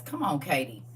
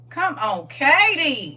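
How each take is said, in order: First: Said in the usual way. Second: Loud call, leaping high on the name; rousing shout. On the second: Real, not acted. Preacher cheering on Katie's library news, in a rousing shout. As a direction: holler it out to rally the room.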